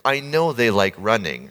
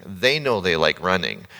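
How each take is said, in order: First: "know" leaned on, falling; stress on know. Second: "They" leaned on, slower line; stress on they. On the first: To the congregation about his friend, stress on know. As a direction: press the word "know". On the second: To the congregation about his friend, stress on they. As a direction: press the word "They" and slow down. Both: Real, not acted. Contrasting who knows.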